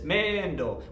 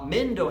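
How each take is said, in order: First: The first vowel is stretched out long. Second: The first vowel is short and plain.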